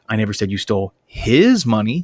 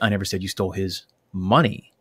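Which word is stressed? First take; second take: his; money. First: The word 'his' is stressed. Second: The word 'money' is stressed. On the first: The money stolen may have belonged to someone else. "seems to imply that I think you might have stolen somebody else's money" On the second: Something other than money may have been stolen. "seems to imply that you may have taken something else"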